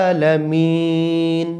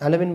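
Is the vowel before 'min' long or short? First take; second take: long; short. First: The vowel before 'min' is drawn out long. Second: The vowel before 'min' is short. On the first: The speaker calls it right. "এখানে তিন আলিফ টানিয়ে বলতে হবে" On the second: The speaker calls it wrong. "আলামিন আলামিন আলামিন বললে কিন্তু হবে না"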